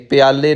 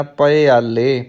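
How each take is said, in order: First: ਪਿਆਲੇ said quickly as "pyaale"; contracted vowels. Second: ਪਿਆਲੇ slowly as "pa-e-aalle"; open first syllable. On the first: Teacher showing learners the mistake, ਪਿਆਲੇ as "pyaale". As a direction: squeeze the start of ਪਿਆਲੇ into "pyaa". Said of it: "ਪਿਆਲੇ ਨਹੀਂ ਕਹਿਣਾ". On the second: Teacher correcting learners, ਪਿਆਲੇ drawn out as "pa-e-aalle". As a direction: keep "pa" open and separate in ਪਿਆਲੇ. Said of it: "ਪੱਪਾ ਮੁਕਤਾ ਰੱਖਣਾ ਹੈ". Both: Shown as a demonstration.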